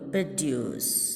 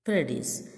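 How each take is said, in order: First: The stress is on the second syllable. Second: The stress is on the first syllable. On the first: The word is used as a verb. "വേർബായിട്ട് ഉപയോഗിക്കുമ്പോൾ ... ആ ഡീൻ്റെ അടുത്താണ് stress വരിക" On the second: The word is used as a noun. "നൗണായിട്ട് ഉപയോഗിക്കുമ്പം അതിൻ്റെ stress വരെ ഫസ്റ്റിലാണ്"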